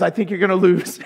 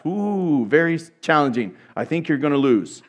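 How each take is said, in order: First: Said in the usual way. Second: Mock prophecy. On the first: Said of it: "he says". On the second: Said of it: "he prophesies".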